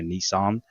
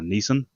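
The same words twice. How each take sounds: First: The name has an American pronunciation. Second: The name has an Australian pronunciation.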